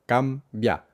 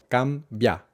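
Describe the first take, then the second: No difference in how they are said.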